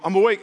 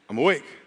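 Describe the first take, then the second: First: It is said at normal speed. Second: It is said slowly.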